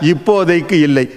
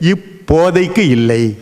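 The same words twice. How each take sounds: First: The phrase flows as one unbroken unit. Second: The word is split with a break inside. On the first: It has its ordinary meaning. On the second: It yields a second hidden meaning.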